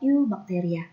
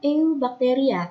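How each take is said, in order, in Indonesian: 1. Diucapkan dengan cara biasa, bukan huruf demi huruf. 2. Diucapkan persis seperti hurufnya ditulis. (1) "tapi dibacanya adalah" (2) "Ini tulisannya"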